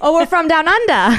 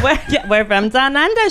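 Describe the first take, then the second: First: Playful put-on Australian, "under" drawled as "undah"; mock Australian accent. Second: Mock Australian accent. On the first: Co-host joining the joke in a hammed-up Australian accent. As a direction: join in with a cheesy Australian voice. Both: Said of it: "We're, we're Australian today".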